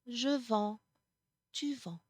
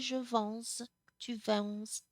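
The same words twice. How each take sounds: First: The final s sound is silent. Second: The final s sound is pronounced. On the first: The speaker calls it right. "you do not pronounce those final s" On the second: The speaker calls it wrong. "You don't say"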